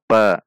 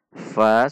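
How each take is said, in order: First: It begins with a two-lip p sound. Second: It begins with a teeth-on-lip f sound. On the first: The speaker calls it wrong. "bukan dibaca pa" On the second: The speaker calls it right. "Perhatikan sifat dan makhraj huruf fa"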